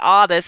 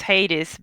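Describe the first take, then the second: First: The name is pronounced the French way. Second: The name is pronounced the usual English way. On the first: This is how the character's name is meant to be said. "she wanted her f- character's name to be Hades" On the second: This is the usual pronunciation of the name. "Normally in English it's Hades"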